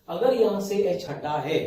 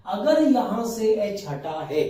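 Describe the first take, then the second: First: Said in the usual way. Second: अगर stretched and stressed, slower and a bit higher; teacher stressing the key condition to students, slowly; slow emphatic condition. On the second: Shown as a demonstration. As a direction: lean on अगर, slowly, to drive the point home. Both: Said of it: "तो ही उसका नाम आइसोपेंटिल होगा".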